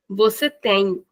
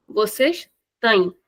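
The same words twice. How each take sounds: First: Said in the usual way. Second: Slow vocês têm, vowel of têm closed; closed short vowel. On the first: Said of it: "it's the normal sound". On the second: Shown as a demonstration. Teacher repeating the contrast once again, closed têm. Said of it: "shortening the sound of the vowel".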